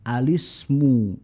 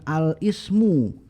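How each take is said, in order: First: The l runs straight into the i sound. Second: The l and a separate i are sounded apart. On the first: The speaker calls it right. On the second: The speaker calls it wrong. "bukan al ismu"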